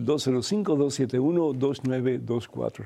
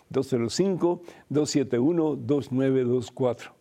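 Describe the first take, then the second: First: The number is read at normal speed. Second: The number is read more slowly.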